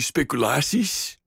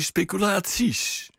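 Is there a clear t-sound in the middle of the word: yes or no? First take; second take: no; yes. First: The middle is said without a clear t-sound. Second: The middle is said with a clear t-sound.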